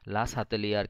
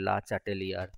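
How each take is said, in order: First: The second word begins with an 's' sound. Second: The second word begins with a 'ch' sound. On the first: "ওটা বললাম যে লা সাতেলিয়ারের concept." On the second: "কেউ কেউ pronounce করে"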